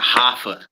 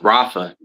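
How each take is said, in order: First: The name begins with an H sound. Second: The name begins with an R sound. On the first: The speaker calls it wrong. "not Hafa" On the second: The speaker calls it right. "It's Rafa"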